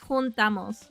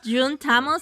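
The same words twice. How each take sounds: First: The first sound is like an English h. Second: The first sound is like an English j. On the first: The speaker calls it right. "The J is pronounced as like a H" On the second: The speaker calls it wrong. "It's not juntamos"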